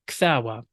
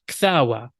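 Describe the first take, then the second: First: The middle consonant is a w sound. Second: The middle consonant is a w sound.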